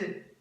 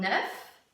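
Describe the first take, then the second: First: It ends on the vowel, with no F. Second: The final F sound is pronounced. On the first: There are several eggs. "quand il y en a plusieurs, on prononce E" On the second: There is only one egg. "et on prononce le F"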